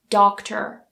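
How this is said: The final R sound is pronounced. "in the U S they would say doctor"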